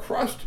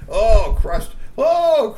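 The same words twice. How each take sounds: First: Said in the usual way. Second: Crushed cried out high and loud; gleeful cry. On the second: A narrator's reading. Storyteller savoring the troll's fall, gleeful high cry.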